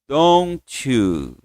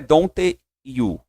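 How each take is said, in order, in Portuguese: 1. As duas palavras são ditas juntas, com fluidez. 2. As duas palavras são ditas separadamente. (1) "Liga, ó" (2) "não é don't you, separado"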